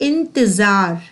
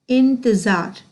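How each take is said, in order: The two takes are said the same way.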